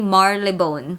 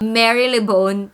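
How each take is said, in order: First: The name is said in a shortened local form. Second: Every letter of the name is sounded as spelled. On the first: The speaker calls it right. "it's Marylebone" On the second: The speaker calls it wrong. "this one is not Marylebone"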